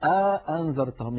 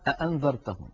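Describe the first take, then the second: First: A long vowel separates the two glottal stops. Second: Both glottal stops are fully pronounced, back to back. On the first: "يدخل بين الهمزتين ألفا" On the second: "تبقي هذا الأمر على حاله ... ينطقون الهمزتين هكذا"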